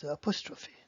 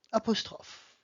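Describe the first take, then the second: First: Apostrophe said the English way, ending in "fee"; English apostrophe with the final e sounded; English pronunciation. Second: Apostrophe said the French way, ending on the f sound; French apostrophe with a silent final e; French pronunciation. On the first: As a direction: say apostrophe in English, four syllables. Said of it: "In English". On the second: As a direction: say apostrophe in French, three syllables. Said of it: "In English, it's apostrophe". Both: Shown as a demonstration.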